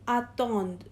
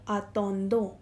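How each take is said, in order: First: The final ending is silent. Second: The final ending is sounded aloud. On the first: The speaker calls it right. "We will pronounce it as attend" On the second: The speaker calls it wrong. "not attendons"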